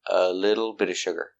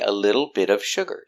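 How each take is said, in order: First: The V sound at the end of 'of' is dropped. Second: The V sound at the end of 'of' is heard. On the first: "you don't hear the V in of" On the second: "You can pronounce the V"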